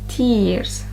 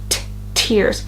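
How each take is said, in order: First: The T is soft, with no puff of air. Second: The T is strong, with a small H puff. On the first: The speaker calls it wrong. "I don't say an aspirated T. I say tears" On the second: The speaker calls it right. "It's a bit stronger. There's a small H sound"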